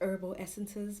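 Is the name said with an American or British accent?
American. It is said with an American accent. "if you're American, I guess it's"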